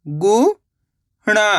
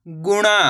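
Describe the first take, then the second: First: गुणा split as rising गु, pause, णा; syllable by syllable. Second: Said in the usual way. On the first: Shown as a demonstration. Teacher teaching how to read, गुणा broken into syllables. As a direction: sound out गुणा in two separate syllables. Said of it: "एक अक्षर का उच्चारण करके". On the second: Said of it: "इनको आपस में लगा पढ़ना है".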